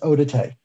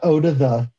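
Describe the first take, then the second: First: The final syllable sounds like 'tay'. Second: The final syllable sounds like 'the'. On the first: The speaker calls it right. "it's Odate" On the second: The speaker calls it wrong. "it's not Oda the"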